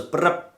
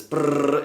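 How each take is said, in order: First: Short rolled-lip "brrrp"; buzzing triplet trill. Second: Longer rolled "brrr" trill; sustained buzz. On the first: Trainer mimics the red button for dog owners, short trilled buzz. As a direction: imitate a quick three-pulse buzz. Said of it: "the red button goes ... like a triplet". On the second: Trainer mimics holding the button down, sustained trilled buzz. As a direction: imitate a continuous squeezing buzz. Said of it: "it's squeezing the muscle". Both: Shown as a demonstration.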